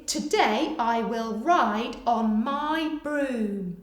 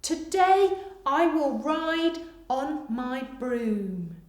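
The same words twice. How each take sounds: First: Very slow, careful dictation. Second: Very slow repeat, stress on today; slow dictation repeat. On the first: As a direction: stretch every word for writers. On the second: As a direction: read it again slowly. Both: Shown as a demonstration. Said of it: "Pause here whilst you finish".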